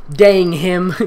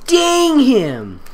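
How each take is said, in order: First: Said in the usual way. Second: High, dramatic "Dang him!" with a laugh; mock outrage. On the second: Shown as a demonstration. Reader hamming the girl's curse at the kidnapper. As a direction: overplay the curse.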